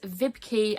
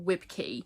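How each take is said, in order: First: The name begins with a V sound. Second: The name begins with a W sound. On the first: The speaker calls it right. "I believe it's Vibke" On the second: The speaker calls it wrong. "and not Wibke"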